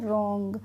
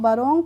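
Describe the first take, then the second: First: The word begins directly with the r sound. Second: A w-like sound begins the word. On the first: The speaker calls it right. "डब्लू का pronunciation नहीं कर रहे हैं" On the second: The speaker calls it wrong. "इसको हम बरोंग तो नहीं पढ़ते हैं"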